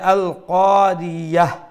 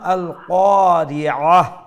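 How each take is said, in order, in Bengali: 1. শেষের স্বরের আগে y ধ্বনি আসে। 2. শেষের স্বরের আগে গলা থেকে আসা ayn ধ্বনি আসে। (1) "ইয়া দিয়া ইয়া হা জবর ইয়াহ পড়লাম" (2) "আইন দিয়ে পড়লাম"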